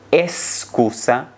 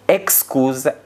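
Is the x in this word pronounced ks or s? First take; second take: s; ks. First: The x is pronounced as a plain s. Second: The x is pronounced as ks. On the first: This is how many people in Spain say it. The speaker calls it wrong. "pronunciem essas palavras com o som de S" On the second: This is the standard, educated pronunciation. The speaker calls it right. "a pronúncia normativa e culta"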